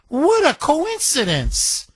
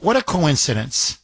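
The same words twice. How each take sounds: First: What a coincidence, sung out high and slow in a put-on voice; hammed-up sarcastic astonishment; mock amazement. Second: Said in the usual way. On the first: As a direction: stretch out What a coincidence in wide-eyed fake wonder. Mocking repeat of own remark.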